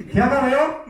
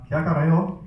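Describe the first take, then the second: First: Much higher mock-angry teacher's demand; scary scolding. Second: Said in the usual way. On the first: Shown as a demonstration. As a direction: scold the pupils in Urdu, pitched right up. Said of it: "I can see some of you getting scared". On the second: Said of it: "And then number two is".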